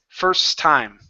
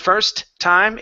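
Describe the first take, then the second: First: The two words share one T sound. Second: A separate T is heard at the end of first. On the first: The speaker calls it right. "only create one T sound" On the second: The speaker calls it wrong. "instead of first time"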